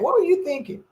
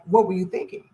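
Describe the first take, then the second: First: It sounds scolding and disbelieving. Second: It sounds like a curious, sincere question.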